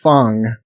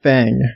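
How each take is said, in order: First: The vowel is an open 'ah', like 'fong'. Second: The vowel is the 'a' of 'cat'. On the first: The speaker calls it right. "I think it's pronounced like Fang" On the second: The speaker calls it wrong. "not Fang"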